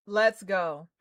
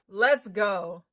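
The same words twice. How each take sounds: The two takes are said the same way.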